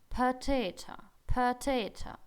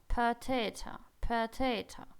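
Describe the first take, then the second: Both takes have the same delivery.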